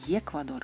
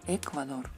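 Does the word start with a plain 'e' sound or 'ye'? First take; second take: ye; e. First: The word starts with a 'ye' sound. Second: The word starts with a plain 'e' sound. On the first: The speaker calls it wrong. "Ni Ecuador" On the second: The speaker calls it right. "la letra E esta da el sonido E"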